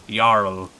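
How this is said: It is said with a Scandinavian accent. "they go Jarl. It's very like they pronounce things a very like Scandinavian way"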